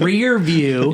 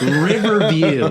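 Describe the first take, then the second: First: It is said with two syllables, like 'rear view'. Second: It is said with three syllables, like 'river view'. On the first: It is the standard name of the mirror. The speaker calls it right. "not rear view" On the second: It is a childhood mishearing of the term. The speaker calls it wrong. "I always call it a Riverview mirror"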